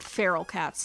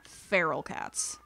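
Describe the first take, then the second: First: Said in the usual way. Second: "Feral cats" slowed right down, each word weighed; corrected stress. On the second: Shown as a demonstration. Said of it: "'Cause there's a difference".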